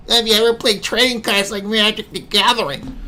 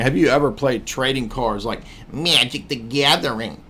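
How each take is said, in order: First: Mocking high voice. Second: Said in the usual way. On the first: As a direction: reread much higher as a nerdy mock. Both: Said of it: "Feminist Rapu says".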